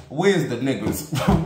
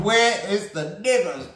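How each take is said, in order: First: Said in the usual way. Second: Laughing through a higher, playful repeat. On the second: Real, not acted. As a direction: crack up as you ask it again.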